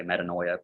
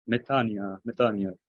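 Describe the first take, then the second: First: Metanoia with an "oy" diphthong; academic pronunciation. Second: Metania with oi said as "ee"; Greek church pronunciation. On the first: Shown as a demonstration. Teacher showing how academics say metanoia, with oy. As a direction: sound out the oi in metanoia, as transliterated. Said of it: "if you're in an academic setting". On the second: Retold or imitated. Teacher voicing priests in a Greek church, church-style metania. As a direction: glide "nia" in metania, no "oy". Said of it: "if you show up in a Greek church".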